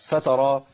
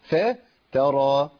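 First: The opening fa vowel is clipped and merged. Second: The opening fa keeps a full, clear vowel. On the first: The speaker calls it wrong. "اختلست وما فصلتش بينهم" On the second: The speaker calls it right. "لكن هي الفاء مضافة للكلمة"

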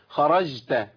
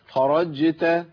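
First: The j sound drifts toward an sh sound. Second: The j sound is clear and full. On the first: The speaker calls it wrong. "طب بالله عليكم سمعتوا مني جيم؟ ... الاولى اقرب للشين من الجيم" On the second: The speaker calls it right. "طب اسمعوا الجيم دي. ... ايوه كده"

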